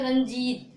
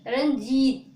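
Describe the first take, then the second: First: रंजीत said fast in one go; quick demo. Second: रंजीत said loud and firm; teacher calls out रंजीत to the class; emphatic demo. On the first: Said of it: "तेजी से बोलते हैं". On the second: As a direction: punch out रंजीत clearly. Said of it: "तेजी से बोलते हैं रंजीत". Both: Shown as a demonstration.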